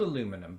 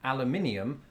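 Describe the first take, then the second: First: It is said without the extra syllable. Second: It is said with the extra syllable. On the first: "I pronounce this aluminum because it's spelled aluminum" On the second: "if it was spelled the British way, aluminium, I would pronounce it thus"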